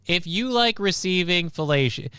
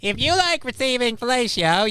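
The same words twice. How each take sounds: First: Said in the usual way. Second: Very high-pitched cartoon voice; goofy cartoon sponge impression, pitched way up; SpongeBob. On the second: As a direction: play it as a squeaky cartoon character. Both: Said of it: "I'm slipping into a SpongeBob voice".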